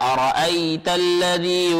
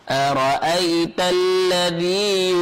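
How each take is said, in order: First: It is said quickly with a short final vowel. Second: It is said slowly with a lengthened final vowel. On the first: The speaker calls it wrong. "jangan terlalu cepat ... salah" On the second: The speaker calls it right. "dia agak diayun di situ"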